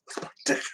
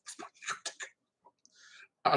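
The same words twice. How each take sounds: First: Whisper. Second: Drawn-out, very soft whisper; slow whisper. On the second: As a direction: breathe it out slowly, barely there. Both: Retold or imitated. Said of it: "and he's like".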